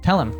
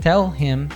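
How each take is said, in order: First: The H sound in him is dropped. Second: The H sound in him is pronounced. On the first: "we tend to drop the beginning" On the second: "To tell him becomes"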